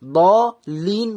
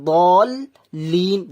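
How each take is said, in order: First: First বলিন split, ব open before লিন; unjoined lam. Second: বলিন drawn out, বল closed on l, then লিন; joined lam. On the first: Teacher showing the form to avoid, বলিন unjoined. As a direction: leave ব open, then a separate লিন in বলিন. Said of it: "বলিন না বলে". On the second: Teacher correcting the split form, বলিন joined. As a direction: stretch বলিন with the l joined to the first part. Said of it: "বলিন না বলে বলিন বলছি". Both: Shown as a demonstration.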